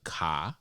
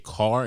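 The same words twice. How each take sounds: First: The final r sound is dropped. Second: The final r sound is clearly pronounced. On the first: The speaker calls it wrong. "That's so fucking stupid" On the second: The speaker calls it right. "I definitely say car"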